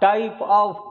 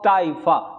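First: It is said as two full words. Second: It is reduced to one word ending in 'uh'.

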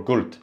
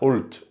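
First: The word begins with a g sound. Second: The word begins with a glottal stop.

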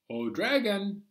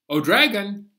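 First: It is said at normal volume. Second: It is said loudly.

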